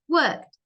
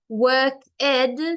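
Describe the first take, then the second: First: The word is said as one syllable. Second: The word is said as two syllables. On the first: The speaker calls it right. "It's worked" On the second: The speaker calls it wrong. "it's the wrong pronunciation"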